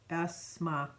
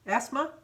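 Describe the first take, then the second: First: "Asma" with a falling end; trying out name. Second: "Asma" rising high like a question; questioning name. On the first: Reading an unfamiliar birthday name, "Asma" tried with falling tune. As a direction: sound out "Asma" as a tentative statement. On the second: Unsure of the birthday name, "Asma" asked with rising tune. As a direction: ask "Asma?" unsure, pitch lifting at the end. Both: Real, not acted. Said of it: "I'm gonna screw this name up too".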